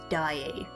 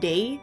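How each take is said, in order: First: The name is said unlike the word 'day'. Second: The name is said like the word 'day'. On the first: This is how most people say it. The speaker calls it right. "most people tend to pronounce it as Daae" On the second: This is how the game says it. The speaker calls it wrong. "this game pronounces Daae as day"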